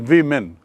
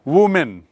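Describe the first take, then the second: First: The first vowel is a short 'ih' sound. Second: The first vowel is an 'oo' sound. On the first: The speaker calls it right. "विमेन है" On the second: The speaker calls it wrong. "Don't say"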